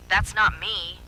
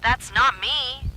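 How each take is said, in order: First: Insistent. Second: High, loud, slow, stressing not; louder desperate cry. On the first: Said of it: "she said again". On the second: Zoe crying out against her double, desperate. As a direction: plead it louder, hitting not. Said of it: "louder this time". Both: A narrator's reading.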